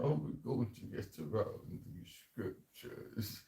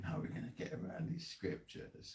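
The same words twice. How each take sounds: First: Put-on slow, plummy posh English accent; mocking the elites in a posh English accent. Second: Breathy hushed scheming line; hushed mock elite line before trying the accent; hushed mock quote. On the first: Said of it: "in the English accent? Do you know what, um, the posh one?". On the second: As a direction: murmur it like a plotter in secret. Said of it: "they're saying".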